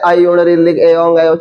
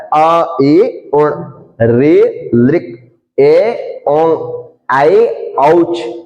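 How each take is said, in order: First: Quick, with the sounds run together. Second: Slow and calm, each sound clearly separate. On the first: The speaker calls it wrong. "ये शुद्ध नहीं है" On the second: The speaker calls it right. "बिल्कुल आराम से करना है"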